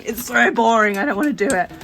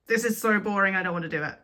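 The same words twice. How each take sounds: First: Loud, bored whine; grumbling at raised volume; whiny complaint. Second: Said in the usual way. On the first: Real, not acted. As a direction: complain loudly like you dread the chore. Complaining about the painting job.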